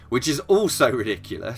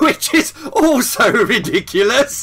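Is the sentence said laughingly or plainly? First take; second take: plainly; laughingly. First: It is said plainly, without laughter. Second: It is said laughingly, with laughter.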